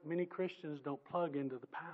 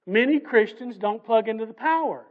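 First: Said softly, almost to himself; quiet aside. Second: Loud repeat. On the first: Preacher musing quietly to the congregation, softly. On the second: Preacher driving the point to the congregation, loudly. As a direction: repeat it loud, landing hard on power. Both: Real, not acted.

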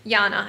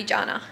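First: Yana with an initial Y sound. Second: Jana with an initial J sound. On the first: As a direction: start Yana like "yah", then "na". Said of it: "I think that's how you say it". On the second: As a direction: start Jana like "jah", then "na". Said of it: "Or it might be Jana". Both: Shown as a demonstration.

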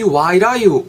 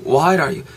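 First: "why are you" run together with a tapped r, rising high; linked sounds. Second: "why are you" reduced to "why-er-you"; reduced linking. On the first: ("why are you"를 '와이라유'로 높게 연음) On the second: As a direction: shrink the "are" in "why are you" to a quick glide. ("why are you"의 are를 약하게 흘려 연음) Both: Shown as a demonstration. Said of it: "연음이 되면은".

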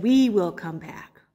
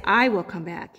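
First: "We will come back" slowly, WE pressed; slow, deliberate, leaning on "We"; stress on WE. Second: "I will come back" with I pushed forward; "I" stressed, singular. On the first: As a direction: press WE, the right version. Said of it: "He said". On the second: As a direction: lean on I, as the wrong version. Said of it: "Abraham did not say". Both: Shown as a demonstration.

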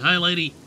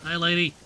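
First: Louder, insistent hello; louder repeated greeting. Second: Said in the usual way. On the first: Real, not acted. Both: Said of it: "I said".

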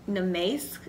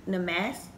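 First: "Namaste" with MAY in the middle; trying a pronunciation. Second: "Namaste" with a short A, like MASS; second pronunciation try. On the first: Vlogger sounds out a mask name, trying "Namaste" with a long AY. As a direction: say "Namaste" tentatively, middle syllable as "mace". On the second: Vlogger retries a mask name, saying "Namaste" with MASS in it. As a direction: say "Namaste" tentatively, middle syllable as "mass". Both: Real, not acted.

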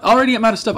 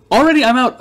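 First: Said in the usual way. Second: Louder and higher complaint; exasperated outburst. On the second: Real, not acted. Shop sold out again, loud mock dismay.

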